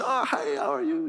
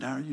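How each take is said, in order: First: Put-on high-pitched greeting in a thick African accent. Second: Said in the usual way. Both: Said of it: "in the thick accent".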